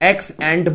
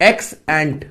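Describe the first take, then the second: First: The second word ends on a consonant. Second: The second word ends on a consonant.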